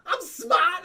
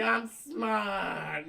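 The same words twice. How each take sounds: First: Fredo's shout. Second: Pleading softly. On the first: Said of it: "And Michael goes like". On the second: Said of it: "Fredo's like". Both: Retold or imitated.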